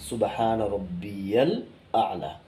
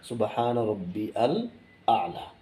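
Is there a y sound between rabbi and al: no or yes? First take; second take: yes; no. First: Rabbi links into al with a y sound. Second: Rabbi and al are said apart, without y. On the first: The speaker calls it right. "সঠিক উচ্চারণটা কি" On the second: The speaker calls it wrong. "আমরা ভুলটি কি করি"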